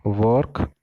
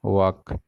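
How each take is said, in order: First: वर्क with sounded r, rising tune; वर्क like "vork", ending up; work in contrast. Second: वर्क as "wahk", no r; वर्क without r, not rising; walk in contrast. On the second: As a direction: say वर्क like walk, open vowel. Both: Shown as a demonstration. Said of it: "इस difference को थोड़ा समझो".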